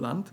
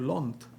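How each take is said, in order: First: The vowel is an open 'ah' sound. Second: The vowel is a rounded 'aw' sound. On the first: This is the standard form of the word. "which is High German, Standard German" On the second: This is the regional dialect form of the word. "in Austria too, where I live, they say Lond"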